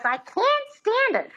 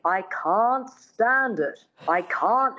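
First: High squeaky repeat of the line; shrill Lina Lamont whine. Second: Slow, careful mid-Atlantic correction; lightly voiced dialect coach. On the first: Retold or imitated. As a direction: squeak it back like the hopeless pupil. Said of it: "And she goes". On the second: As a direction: model the line slowly like a coach. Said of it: "her dialect coach says".

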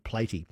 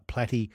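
First: "Platy" with a long A, like "play-tee"; first vowel of "Platy" as in "play"; spelling pronunciation. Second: "platy" with a short A, as in platypus; first vowel of "platy" as in "flat"; short-A pronunciation. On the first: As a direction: say "Platy" to rhyme with weighty. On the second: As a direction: say "platy" to rhyme with natty. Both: Shown as a demonstration. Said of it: "It looks like Platy".

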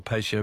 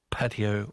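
First: "patio" said as PAY-shee-oh; pay-shio pronunciation. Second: "patio" said as PAT-ee-oh; patty-oh pronunciation. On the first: Radio host offering the other version to listeners, "patio" as PAY-shee-oh. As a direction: make "patio" start with PAY, then sh. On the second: Radio host reading about builder licences, "patio" as PAT-ee-oh. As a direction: make "patio" start like patty. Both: Shown as a demonstration. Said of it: "is it a patio or patio?".

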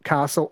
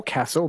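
First: "castle" with a long ah, KAH-sul; long-a pronunciation. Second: "castle" with the flat a of cat, KASS-ul; short-a pronunciation. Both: Shown as a demonstration. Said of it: "not castle or castle".

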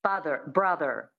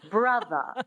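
First: "Father, brother" each ending in a sounded R; American rhotic R. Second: "Brother" ending in uh, no R; dropped R schwa. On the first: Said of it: "So that's the American". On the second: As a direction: drop the R from "Brother". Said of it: "you drop the R and you make it a schwa". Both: Shown as a demonstration.

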